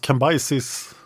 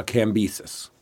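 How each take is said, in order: First: Cambyses said kam-BYE-sees; Cambyses other way. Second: Cambyses said KAM-bi-sees; Cambyses, short i in the middle; Cambyses first way. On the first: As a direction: Cambyses with long eye sound. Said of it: "I've heard it pronounced". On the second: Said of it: "I've heard it pronounced Cambyses". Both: Shown as a demonstration.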